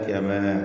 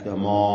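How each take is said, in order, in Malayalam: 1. വ്യഞ്ജനങ്ങളും സ്വരവും ലഘുവായും നേർമ്മയായും ശബ്ദിക്കുന്നു. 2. വ്യഞ്ജനങ്ങളും സ്വരവും ഘനമായും കട്ടിയായും ശബ്ദിക്കുന്നു. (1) "ബാക്കി അക്ഷരങ്ങൾക്കൊക്കെ തർഖീഖാണ്" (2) "കമാ അല്ല"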